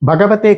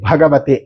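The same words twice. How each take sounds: First: The first consonant is said without aspiration. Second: The first consonant is said with aspiration. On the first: The speaker calls it wrong. "ఈ ఒత్తు తీసేస్తున్నారు... భగవతే కాదు" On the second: The speaker calls it right. "అది భగవతే"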